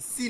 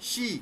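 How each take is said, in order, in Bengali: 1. এই অক্ষরটি সাধারণ s ধ্বনি দিয়ে শুরু হয়। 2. এই অক্ষরটি sh ধ্বনি দিয়ে শুরু হয়। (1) "সি না"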